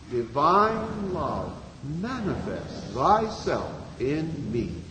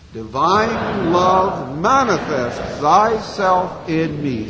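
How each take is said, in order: First: It is said softly. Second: It is said at normal volume.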